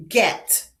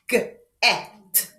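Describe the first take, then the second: First: Said in the usual way. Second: "G-et" broken into G, then EH-T; sounded out. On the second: Shown as a demonstration. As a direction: split G-et after the hard G. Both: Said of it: "Repeat after me".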